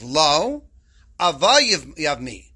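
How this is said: It has a hard pause right after lo. No; the brother-in-law does want to marry her. The speaker calls it wrong.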